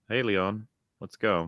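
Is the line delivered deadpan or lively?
deadpan. It is said flat and deadpan, without feeling.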